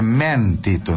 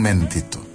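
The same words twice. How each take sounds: First: The stressed E vowel is open and drawn out. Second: The stressed E vowel is closed and short. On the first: This is how a speaker from Córdoba says it. The speaker calls it right. "É mentito" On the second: This is not the Córdoba way of saying it. The speaker calls it wrong. "não mentito"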